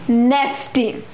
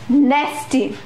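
First: The first vowel is short and front, as in 'cat'. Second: The same.

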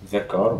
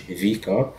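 First: The word 'the' is pronounced 'thuh'. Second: The word 'the' is pronounced 'thee'. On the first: The speaker calls it right. "هنقول ذا كار" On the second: The speaker calls it wrong. "مش في كار"

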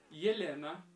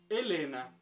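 First: It is pronounced the Russian way. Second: It is pronounced the Spanish way.

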